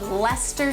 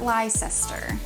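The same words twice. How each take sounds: First: The name is said shorter than its spelling. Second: The name is said following its full spelling. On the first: The speaker calls it right. "not pronounced as they're spelled" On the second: The speaker calls it wrong. "not Leicester"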